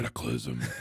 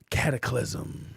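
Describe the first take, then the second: First: It is said in a booming monster-truck announcer voice. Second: It is said in his normal voice.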